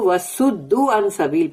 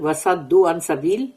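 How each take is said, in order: First: The verb has a 'u' vowel after the S. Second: The verb has an 'a' vowel after the S. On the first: They themselves were turned away from the path. "Others read it with damma over the sad" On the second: They turned others away from the path. "Some read with fatha over the sad"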